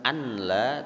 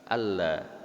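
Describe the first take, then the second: First: A clear n sound comes before the l. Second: The n merges fully into a doubled l. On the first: The speaker calls it wrong. "Alla bukan anla" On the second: The speaker calls it right. "tapi alla"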